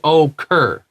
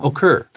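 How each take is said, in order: First: The word is said slowly and drawn out. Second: The word is said quickly and compactly. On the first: It sounds like slang meaning okay. The speaker calls it wrong. "Don't say occur" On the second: It is the ordinary word. The speaker calls it right. "but say it fast"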